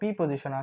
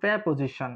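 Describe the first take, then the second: First: The first syllable sounds like 'pee'. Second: The first syllable sounds like 'pya'. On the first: The speaker calls it wrong. "ছোটবেলা থেকে উচ্চারণ করা হলো পি পজিশন" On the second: The speaker calls it right. "এটা হলো প্যা পজিশন"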